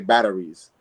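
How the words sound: It is said in an American accent.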